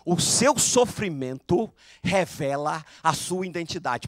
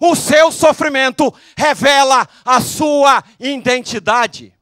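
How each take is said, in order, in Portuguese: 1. Ela é dita em volume normal. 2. Ela é dita bem mais alto.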